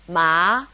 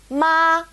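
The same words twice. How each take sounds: First: It is said with the second tone. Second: It is said with the first tone. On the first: "second tone" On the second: "our first tone"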